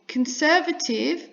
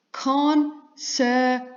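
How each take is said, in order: First: Said in the usual way. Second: "conservative" very slowly as con, ser, va, tive; a clear pause between all four beats of "conservative"; syllable by syllable. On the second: Shown as a demonstration. Teacher counting four syllables, "conservative" chopped into con-ser-va-tive. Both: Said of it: "four syllables".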